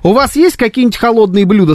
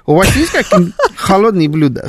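First: It is said in the speaker's normal accent. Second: It is said in a put-on Pakistani accent.

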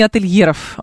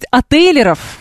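First: The L is followed by a y-glide before e. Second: The L is followed directly by a plain e. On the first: The speaker calls it wrong. "а не «отельеров»" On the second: The speaker calls it right. "правильно, товарищи, говорить «отелеров»"

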